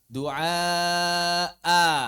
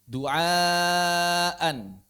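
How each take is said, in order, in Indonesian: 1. Kata ini berakhir dengan vokal a panjang. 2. Kata ini berakhir dengan bunyi n. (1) "Kita waqaf baca" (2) "Seperti kata du'aan"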